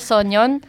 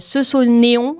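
First: The name is said with Korean pronunciation. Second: The name is said with French pronunciation. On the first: The speaker calls it right. "je précise, c'est Sonyeon" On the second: The speaker calls it wrong. "ça c'est à la française, ce serait Sonyeon, mais ça se prononce pas du tout comme ça"

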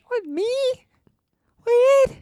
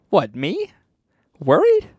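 First: It is said in a higher pitch. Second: It is said at normal pitch.

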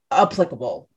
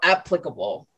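First: The first syllable does not sound like 'app'. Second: The first syllable sounds like 'app'. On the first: The speaker calls it wrong. "not applicable" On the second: The speaker calls it right. "It starts like the apps on your phone"

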